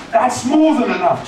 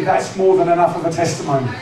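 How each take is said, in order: First: "That's more than enough" pitched up, insistent; emphatic repeat. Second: Said in the usual way. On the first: Real, not acted. Preacher repeats his point to the congregation, higher and emphatic.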